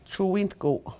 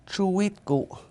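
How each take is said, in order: First: The vowel before the t is nasalized. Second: The vowel before the t is oral.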